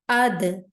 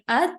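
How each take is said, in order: First: The final consonant ends with a jerked bouncing echo. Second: The final consonant ends plainly without any bounce. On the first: The speaker calls it right. "we have to jerk the sound" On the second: The speaker calls it wrong. "Instead of saying ad"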